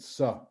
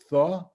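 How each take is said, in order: First: The syllable starts with an s sound. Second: The syllable starts with a th sound. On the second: This is the Yemenite pronunciation of the letter. "Yemenites pronounce it tha"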